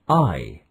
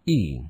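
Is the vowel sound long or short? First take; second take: long; short. First: The letter is said with its long vowel sound. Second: The letter is said with its short vowel sound. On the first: "Like in ice, iron, bike" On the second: "Like in ink, in, pin"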